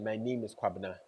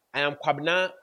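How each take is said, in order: First: Softer, hesitant name; the weaker way to say it; a little unsure introduction; less confident version. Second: Assured, upfront name; confident self-introduction. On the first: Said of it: "a bit more confident than". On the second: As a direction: say it firmly and sure. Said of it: "makes you look a bit more confident". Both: Shown as a demonstration.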